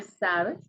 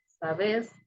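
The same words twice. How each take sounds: First: Said in the usual way. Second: Sabes said sa-BÉS, stressed on the end; stress on last syllable. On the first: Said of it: "en vez de sabes". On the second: Shown as a demonstration. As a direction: punch the second syllable of Sabes. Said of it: "el énfasis, ahí va a nivel fonético".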